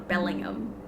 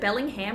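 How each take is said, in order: First: The h in 'ham' is silent. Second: The h in 'ham' is pronounced. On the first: "or without the H?" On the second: "With that, with the H"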